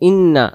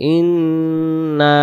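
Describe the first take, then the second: First: The nn is short with no nasal hum. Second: The nn is held with a long nasal hum. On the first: The speaker calls it wrong. "গুণনা হইতেছে না" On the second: The speaker calls it right. "আর আমরা বলবো ইন্না"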